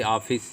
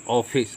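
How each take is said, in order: First: Said in the usual way. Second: ऑफिस with the open English aw vowel, awfis; loanword o sound. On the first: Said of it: "ये सीधा बोलेंगे तो कहेंगे ऑफिस". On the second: Shown as a demonstration. Teacher contrasting plain and borrowed vowel: ऑफिस with open aw. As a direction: give ऑफिस a rounded open first vowel. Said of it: "आगत शब्द लगा देंगे अर्धचंद्राकार तो बोलेंगे".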